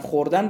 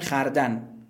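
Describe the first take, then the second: First: The first vowel is o, khordan. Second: The first vowel is a, khardan. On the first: This is the standard form. "مثلا خوردن رو" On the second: This is the village dialect and old form. "میگن خردن"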